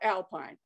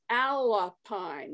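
First: It is said like the ordinary word alpine. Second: It is said as two parts, Al-Pine. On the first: The speaker calls it wrong. "not Alpine" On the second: The speaker calls it right. "Our name comes from Alabama Pines"

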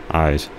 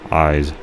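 Both takes have the same delivery.

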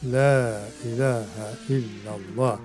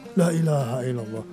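First: The first 'la' is long, the second short. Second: The second 'la' is long, the first short. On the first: The speaker calls it right. "Itu bacaannya betul" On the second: The speaker calls it wrong. "Dia panjang yang kedua. Itu salah"

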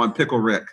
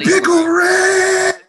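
First: The phrase is said at normal conversational volume. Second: The phrase is shouted very loudly. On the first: The speaker calls it wrong. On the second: The speaker calls it right.

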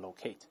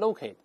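First: It is said with a British pronunciation. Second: It is said with an American pronunciation. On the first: "英式发音可以读成locate 都可以" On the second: "美音中读成locate"

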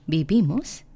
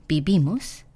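Both takes have the same delivery.

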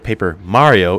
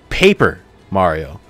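First: The word Mario is stressed. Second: The word Paper is stressed. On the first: The focus is on the Mario side of the series. "Instead of Paper Mario" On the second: The focus is on the paper and crafted side of the series. "the crafted side and of the paper side"

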